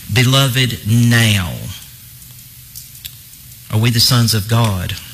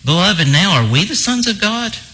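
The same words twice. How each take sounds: First: It is said as a statement stressing now. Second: It is read as a rising question.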